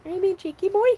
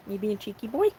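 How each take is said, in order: First: Much higher, playful cooing at the dog; high teasing pet talk. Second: Said in the usual way. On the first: Real, not acted. Owner teasing her cheeky dog, high playful baby talk.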